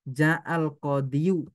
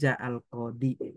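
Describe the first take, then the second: First: The last word ends with a full 'yu' sound. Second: The last word ends in a plain 'i' sound. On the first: This is the full underlying form, felt as heavy to say. The speaker calls it wrong. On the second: The heavy ending is dropped and only understood. The speaker calls it right. "Makanya dihilangkan domahnya, tinggal ditakdirkan. Menjadi ja'al qadi"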